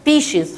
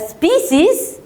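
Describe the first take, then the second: First: The middle consonant is an 'sh' sound. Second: The middle consonant is an 's' sound. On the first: This is the American pronunciation. "والامريكان يقول لك لا هننطقها سي اتش" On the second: This is the British pronunciation. "البريطانيين ... هننطقها اس"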